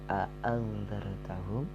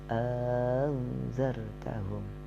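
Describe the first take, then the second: First: Both glottal stops at the start are clearly pronounced. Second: The second glottal stop becomes a long vowel. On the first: "menampakkan dua hamzah" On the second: "hamzah yang kedua diganti menjadi alif, jadi diucapkan"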